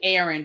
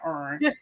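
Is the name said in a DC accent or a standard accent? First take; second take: standard; DC. First: The name is said with standard two-syllable pronunciation. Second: The name is clipped to one syllable, DC style. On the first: "I know how to say it correctly" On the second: "that's my D C accent"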